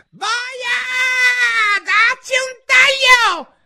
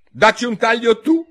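First: Shrieked very high and loud, slow; furious scream. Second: High, loud, decisive retort; loud and firm. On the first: La regina urla furiosa la condanna. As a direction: scream the order in rage. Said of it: "urlò". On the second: Alice ribatte alla regina, forte e decisa. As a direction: throw it right back at her. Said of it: "a voce molto alta e decisa". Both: Acted.

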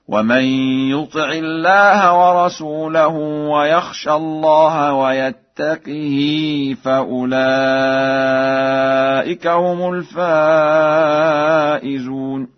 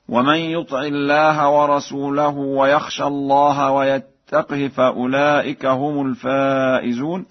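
First: Drawn madds, lengthen the hi of "ويتقه"; kasra with long hi. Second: Said in the usual way. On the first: Shown as a demonstration. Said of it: "بكسر القاف والهاء وصلة". (ترتيل بكسر قاف "ويتقه" وصلة الهاء) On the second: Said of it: "قرأ ورش".

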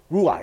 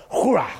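First: Said in the usual way. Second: "Hurrah" started on a rush of breath. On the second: Shown as a demonstration. Preacher shows the Hebrew sounds like breath, breathy "Hurrah". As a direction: exhale audibly into "Hurrah". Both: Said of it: "It sounds like breath".

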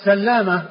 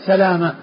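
First: سلامة with a double l, "sallama"; doubled lam. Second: سلامة with a single short l, "salama"; lightened lam. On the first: Teacher naming the doubled form, سلامة as "sallama". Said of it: "بالتشديد". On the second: Teacher giving the default form, سلامة as "salama". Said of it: "بتخفيف اللام". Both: Shown as a demonstration.

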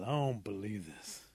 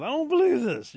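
First: Slow, sulky grumble; grumbling. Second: Very high, loud wailing disbelief; moaning protest. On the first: Possum trudging off to the next town, grumbling. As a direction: grumble it to yourself, dragging the words. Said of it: "Possum's really grumbling". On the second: Possum sees Rabbit's new wife, moaning in protest. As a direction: wail it out, hammed-up and hurt. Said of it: "starts to moan and cry". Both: Acted.

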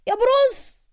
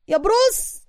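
First: Very high call of بروس falling at the end. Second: High call of بروس rising at the end. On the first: Suka's last high call after Bruce, falling away. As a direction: call بروس once more, top of the voice, then drop. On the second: Suka calls after Bruce running off, high rising call. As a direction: call بروس after him, pitch climbing up. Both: A narrator's reading. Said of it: "وسوكا ينادي عليه".

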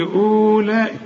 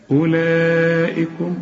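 First: أولئك clipped wrongly; mock mistake; wrong reading. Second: أولئكم slowly with the waw silent; slow clear أولئكم; correct. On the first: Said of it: "اوعى تقول لي أولئك". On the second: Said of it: "اوعى تقول لي". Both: Shown as a demonstration.

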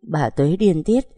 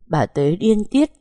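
First: Said in the usual way. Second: "bà Tuế điên tiết" read higher and slower, stretching "tiết" up; emphatic slow higher read of "điên tiết"; raised and slowed. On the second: Shown as a demonstration. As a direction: lift the pitch and draw out "bà Tuế điên tiết".

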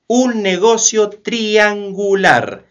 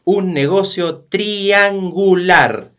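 The two takes are said the same way.

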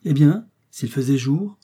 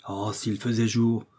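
First: Slow, louder, higher leading question; singular, pointed tone. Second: Slow, drawn-out wish at ordinary pitch; wistful exclamation. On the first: Doctor questions Joe's wish, in a curious tone. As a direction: echo it back intriguingly, ending on a rise. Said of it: "d'un ton singulier". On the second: Joe wishes for daylight to act, wistful exclamation. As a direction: sigh out a frustrated wish. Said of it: "s'écria Joe". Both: A narrator's reading.

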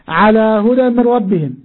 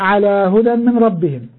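The two takes are said the same way.

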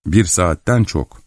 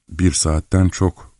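First: Said in the usual way. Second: Slow, musing repeat; echoing repetition. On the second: A narrator's reading. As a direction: repeat it slowly, taking it in. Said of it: "diye tekrarladım". (ağır ağır tekrarlayarak)

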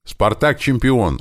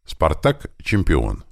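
First: High, drawn-out happy cry; joyful shout. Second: Said in the usual way. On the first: A narrator's reading. Tim recognising the signal, joyful high shout. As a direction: cry it out in delight, slowly chanted. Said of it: "обрадовавшись, крикнул Тим".

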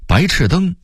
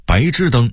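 First: Said in the usual way. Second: 白炽灯 as báizhìdēng; Beijing-style 白炽灯 with unaspirated zh; Beijing dialect reading. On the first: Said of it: "北京话读白炽灯". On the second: Shown as a demonstration. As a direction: say 炽 in 白炽灯 as zhì, not chì. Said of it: "北京话读".

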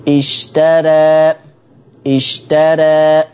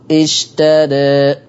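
First: Slow chanted "اشترى" with the alif leaning toward ee; alternative reading. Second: Slow "اشترى" with the vowels pulled to e; second reading. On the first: الشيخ يعرض قراءة أخرى بإمالة خفيفة في "اشترى". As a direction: stretch "اشترى" slowly, tilting the final vowel. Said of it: "في ناس بيقولوا إزاي بقى". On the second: الشيخ يعرض نطقا بترقيق الراء في "اشترى". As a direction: chant "اشترى" with a thin ra and e sounds. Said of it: "وفي ناس بيقولوا". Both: Shown as a demonstration.

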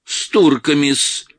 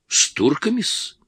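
First: Slow, high, louder mimicry of his -с; mocking mimicry. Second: Obsequious question. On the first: Иванчук mocks the actor's words, mimicking him. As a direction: ape the servile -с in "С турками-с". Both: A narrator's reading. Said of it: "передразнил Иванчук".

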